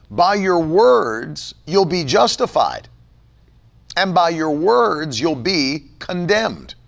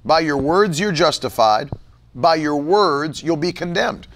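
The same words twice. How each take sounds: First: Slow, weighty reading of each word; slow scripture reading. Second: Said in the usual way. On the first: Real, not acted. Preacher reads Matthew to the congregation, slow and weighty. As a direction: lay the verse down slowly for emphasis.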